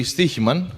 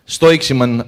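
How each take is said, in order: First: "Stichiman" with STEE first and a soft Greek h-like chi; correct Greek pronunciation. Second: "Stoiximan" read as spelt, with an oy and an x sound; mispronounced company name. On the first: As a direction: say "Stichiman" as STEE-hee-man, no x sound. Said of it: "It's actually Stichiman". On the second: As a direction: say "Stoiximan" with STOY first and a ks in the middle. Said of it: "as you might pronounce it". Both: Shown as a demonstration.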